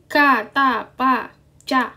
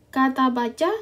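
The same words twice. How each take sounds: First: The consonants are strong, with a forceful burst. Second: The consonants are soft, without a strong burst.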